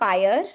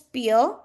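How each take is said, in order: First: The vowel sounds like the one in fire. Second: The vowel sounds like the one in fear. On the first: The speaker calls it wrong. "It's not pyre" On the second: The speaker calls it right. "the pronunciation is peer, right?"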